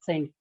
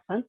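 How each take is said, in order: First: The word is pronounced the English way. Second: The word is pronounced the Hindi way. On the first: The speaker calls it right. "if we would have been talking in English" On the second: The speaker calls it wrong. "if we are talking in Hindi, then it is okay to say Sant"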